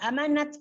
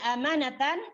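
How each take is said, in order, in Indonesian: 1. Kata ini berakhir dengan bunyi t. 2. Kata ini berakhir dengan akhiran -atan yang lengkap.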